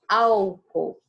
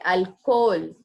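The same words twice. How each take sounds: First: The stress falls where Portuguese puts it. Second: The stress falls where Spanish puts it. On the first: The speaker calls it wrong. "Não é álcool" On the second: The speaker calls it right. "é álcool"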